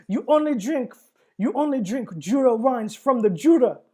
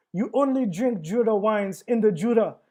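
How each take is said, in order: First: Louder, higher mock French accent; hammed-up angry Frenchman, French accent; clumsy French accent, laughing through it; bad French accent. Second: Clumsy mock French accent, angry; a hammed-up French accent; bad French accent. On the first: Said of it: "that was really bad French accent". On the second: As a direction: imitate an angry Frenchman badly. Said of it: "was that really his accent".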